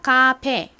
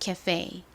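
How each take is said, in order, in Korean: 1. 한국 외래어처럼 발음해요. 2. 영어로 발음하되, 끝부분을 강하게 발음해요. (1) "카페가 아니라" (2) "앞에 부분을 약하게 발음하고 뒤에 부분을 fe, fe 이렇게 세게 발음합니다"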